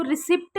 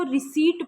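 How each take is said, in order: First: "रिसिप्ट" with the P sounded; mispronounced receipt. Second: "रिसीट" with a silent p; correct receipt pronunciation. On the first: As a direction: say "रिसिप्ट" with a short i and audible p before the t. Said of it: "नहीं पढ़ना". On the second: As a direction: say "रिसीट" with a long ee straight into the t. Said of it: "इसको रिसीट पढ़ना है". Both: Shown as a demonstration.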